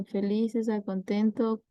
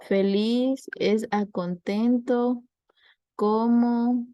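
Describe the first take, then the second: First: Said in the usual way. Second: Slow quiz reading. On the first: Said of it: "¿qué otra palabra podría ser?". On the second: Shown as a demonstration. Teacher posing a sample analogy to the class, slow quiz reading. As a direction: read it out slowly like an exam item. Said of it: "O si le preguntan".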